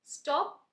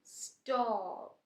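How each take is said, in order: First: स्टॉप with a short clipped o, higher and louder. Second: स्टॉप drawn out very slow, stretched; long drawn o. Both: Shown as a demonstration. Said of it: "ओ sound long जा रहा है वहाँ".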